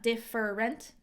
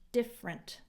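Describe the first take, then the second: First: The middle vowel is said, giving three syllables. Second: The middle vowel is dropped, giving two syllables. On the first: The speaker calls it wrong. "not different" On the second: The speaker calls it right. "this E isn't pronounced"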